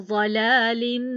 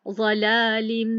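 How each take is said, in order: Both takes have the same delivery.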